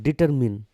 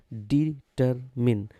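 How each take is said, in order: First: Said in the usual way. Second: determine slowly split into डि, टर, मिन; syllable by syllable. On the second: Shown as a demonstration. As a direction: break determine into three separate syllables. Teacher says word, then breaks it up.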